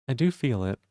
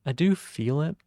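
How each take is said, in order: First: Said in the usual way. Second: "I do feel it" lifted higher with "do" rising, a bit louder; lighter feminine take. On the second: Shown as a demonstration. Streamer trying out a lighter, higher feminine ending. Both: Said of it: "I feel like I may be doing that".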